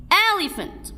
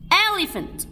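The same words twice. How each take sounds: The two takes are said the same way.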